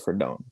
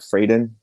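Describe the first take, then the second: First: The surname is said with a Spanish-style pronunciation. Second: The surname is said with an English-style pronunciation. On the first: "I pronounce it like with the uh with the um what do you call like Latin accent" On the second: "I've heard people pronounce it Frayden"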